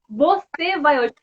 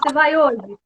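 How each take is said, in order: First: The first word is said in full, two syllables. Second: The first word is shortened to one syllable. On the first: This is the full form being clarified. "não, é você vai hoje" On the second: This is the casual everyday form. "E a gente ainda fala"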